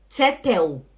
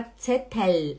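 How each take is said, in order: First: TSETEL with the final L turned into a U, "tse-teu"; wrong final L. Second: Tsetel ending on a clear held L; tongue tip up for the L closing tsetel, drawn out; correct final L. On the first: Teacher showing students the error they make, final L as U. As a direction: say tsetel ending in an "ew" glide. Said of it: "não aceito vocês falarem". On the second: Teacher modelling the word for students, clear final L. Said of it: "Fala tsetel". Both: Shown as a demonstration.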